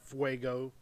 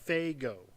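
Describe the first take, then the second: First: The name begins with a 'fway' sound. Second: The name begins with a 'fay' sound. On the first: The speaker calls it wrong. "not Fuego" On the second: The speaker calls it right. "F A Y G O"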